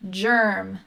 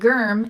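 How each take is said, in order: First: It begins with a soft G, like J. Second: It begins with a hard G, as in go. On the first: The speaker calls it right. "it's germ, soft G" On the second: The speaker calls it wrong. "it's not germ"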